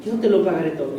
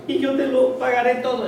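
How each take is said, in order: First: Lower, sarcastic repeat of the promise; mocking the lie. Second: High, begging promise; pleading promise. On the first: Preacher mocking the servant's false promise, sarcastic. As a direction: scoff at the empty promise. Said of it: "Escuchen la mentirona". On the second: Acted. Servant promising his master to pay, pleading. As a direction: beg sincerely. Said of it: "le suplicaba diciendo".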